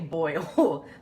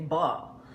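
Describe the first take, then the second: First: The vowel glides like in 'oil'. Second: The vowel is flat like in 'all'. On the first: This is how others say it. "They don't say boil" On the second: This is how people in the South say it. "they say ball"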